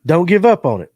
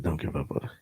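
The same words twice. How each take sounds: First: Laughing. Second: Much lower, much softer sexy voice; teasing mock sultry whisper-low. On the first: Shown as a demonstration. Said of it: "Why'd you say it like in a sexy voice". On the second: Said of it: "like in a sexy voice".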